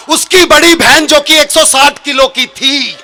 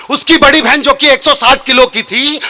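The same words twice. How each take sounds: First: Slower, laughing half-shout on the setup; emphatic punchline. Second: Said in the usual way. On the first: Shown as a demonstration. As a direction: push it out with a laugh for the big reveal. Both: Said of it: "repeat of the line".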